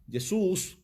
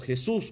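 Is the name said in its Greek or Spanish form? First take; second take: Greek; Spanish. First: The name is said with a Greek pronunciation. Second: The name is said with a Spanish pronunciation. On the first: "como se diría en el griego" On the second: "como se diría, ¿verdad? En nuestra lengua"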